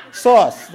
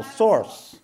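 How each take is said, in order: First: "sauce" very loud and high, no r at all; pronounced without R. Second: "Source" said loud with a clear r before the s; pronounced with R. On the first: Amused teacher showing the group the other word, loud r-less "sauce". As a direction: belt out "sauce" with a pure open vowel, r-less. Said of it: "Now say sauce". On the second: Teacher quizzing listeners on what he is saying, emphatic r in "Source". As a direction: hit "Source" hard, sounding the r. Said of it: "What am I saying now?". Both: Shown as a demonstration.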